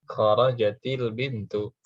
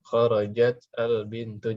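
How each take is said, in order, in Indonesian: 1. Huruf t di akhir mendapat vokal i, lalu tersambung. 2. Kedua kata diucapkan tanpa vokal penyambung i.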